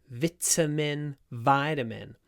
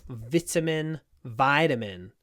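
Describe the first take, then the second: The two takes are said the same way.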